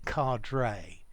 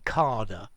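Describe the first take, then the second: First: It is said the common American way. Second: It is said the common British way. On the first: "many Americans say cadre" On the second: "many people say cadre, yeah, British"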